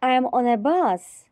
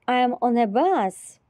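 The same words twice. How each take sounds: The two takes are said the same way.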